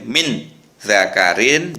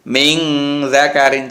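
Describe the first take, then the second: First: The n of min is a clear n. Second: The n of min is nasalized like ng. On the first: The speaker calls it wrong. "tidak boleh" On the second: The speaker calls it right. "mata ini ng"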